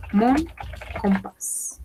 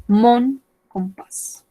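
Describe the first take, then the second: First: "mon", a pause, then "compás"; word by word. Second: Said in the usual way. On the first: Shown as a demonstration. Teacher models French for learners, word by word.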